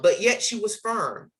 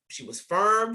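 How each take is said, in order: First: Said in the usual way. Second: Firm lifted much higher in pitch; emphatic repeat of firm; stress on firm. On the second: Real, not acted. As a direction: land hard on the word firm. Repeating her teacher's qualities.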